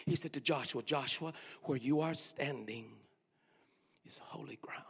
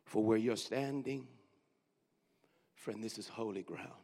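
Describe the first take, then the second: First: Drops to a whisper on holy ground; whispered verse for those who missed it; whispered repeat. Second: Soft, low repeat; hushed repeat of the verse. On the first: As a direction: repeat it low, ending in a whisper. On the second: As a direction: hush it again for those who missed it. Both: Shown as a demonstration. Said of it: "Let me say it one more time".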